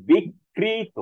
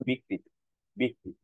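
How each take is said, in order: First: বিকৃত dragged out as "bik-kreee-to"; over-forceful wrong pronunciation. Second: বিকৃত lightly as "bi-krito"; single short kr in বিকৃত; simple pronunciation. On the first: Teacher shows what not to say, exaggerated pronunciation. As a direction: double the k and stretch বিকৃত very slowly. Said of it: "এত জোরালো ভাবে উচ্চারণ করি". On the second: Teacher models the simple form, light pronunciation. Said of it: "just simple". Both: Shown as a demonstration.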